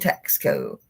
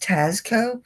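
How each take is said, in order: First: There is a k sound before the s. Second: There is no k sound before the s. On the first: This is the fun, informal way. "this Southern girl likes saying Taxco" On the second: This is the correct, proper way. "I know it's Tasco"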